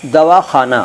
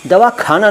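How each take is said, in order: First: दवाखाना with a throaty x sound, खा as in Urdu; correct pronunciation. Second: दवाखाना with a hard kh, as the wrong form; wrong pronunciation. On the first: Teacher giving the correct दवाखाना with throaty kh. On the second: Teacher demonstrating the wrong दवाखाना with kh. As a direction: say दवाखाना with plain kh as the error. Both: Shown as a demonstration. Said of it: "दवाखाना नहीं".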